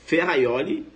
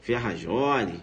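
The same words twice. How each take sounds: First: "Ferraioli" rising, with a Y glide; your correct pronunciation. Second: "Ferrajoli" low, with a zh; rival's wrong pronunciation. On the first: Teacher shows students the better version, correct pronunciation. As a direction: say "Ferraioli" as fe-ha-YO-li, lifted at the end. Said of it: "Você fala". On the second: Teacher mimics the rival candidate, wrong pronunciation. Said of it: "teu concorrente falar". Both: Shown as a demonstration.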